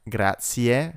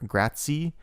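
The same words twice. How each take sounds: First: The word ends with a clear 'ie' sound. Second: The word ends without a final 'e' sound. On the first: This is the actual pronunciation. The speaker calls it right. "It is in fact grazie, ie at the end" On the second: This is how it is often said in movies. The speaker calls it wrong. "in a lot of movies they pronounce this word grazie"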